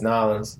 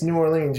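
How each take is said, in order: First: "New Orleans" slurred into "N'awlins"; locals' run-together "New Orleans", pitched lower; local pronunciation. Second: Said in the usual way. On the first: Shown as a demonstration. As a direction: say "New Orleans" as two syllables, "Naw-lins". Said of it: "you say it's New Orleans". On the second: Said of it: "you don't say it's New Orleans".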